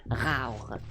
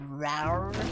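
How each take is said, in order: First: The R is made in the French way. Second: The R is made in the English way. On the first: "If I wanted to say it in French, it would be like rar" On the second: "you have to say like rar"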